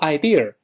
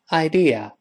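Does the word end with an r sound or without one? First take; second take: with r; without r. First: The word ends with a curled r sound. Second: The word ends without any r sound. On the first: The speaker calls it wrong. "注意不要读idea, 以为一卷舌头就成美语了" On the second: The speaker calls it right. "没有字母r, 舌头尖不能勾回来"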